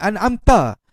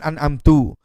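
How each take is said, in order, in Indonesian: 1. Kata itu berakhir dengan vokal 'a'. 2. Kata itu berakhir dengan vokal 'u'. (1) "Asalnya huruf ta berbaris di atas" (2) "dibaca menjadi baris hadapan"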